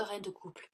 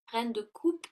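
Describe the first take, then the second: First: "reine de couple" with a stray L, "couple" ending in /pl/; misspoken couple. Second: "reine de coupe" said louder, "coupe" ending cleanly in /p/ with no L; firmly fix it to "coupe", a touch louder; corrected coupe. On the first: Tarot reader misreads the card name, saying "couple". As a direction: slip and say "couple" instead of "coupe". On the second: Tarot reader corrects herself to "coupe", a bit louder. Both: Real, not acted.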